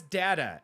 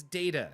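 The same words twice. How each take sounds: First: "data" said as dat-uh; short-A data. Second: "data" said as day-tuh; long-A data. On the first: Streamer showing the rejected way, data as dat-uh. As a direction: say "data" with the A of cat. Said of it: "Nobody says data". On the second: Streamer insisting on the preferred way, data as day-tuh. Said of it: "It's data". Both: Shown as a demonstration.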